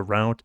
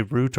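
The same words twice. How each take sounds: First: Route rhyming with "out"; route pronounced "rowt". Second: Route rhyming with "boot"; route pronounced "root". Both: Shown as a demonstration. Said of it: "Do you say route or route".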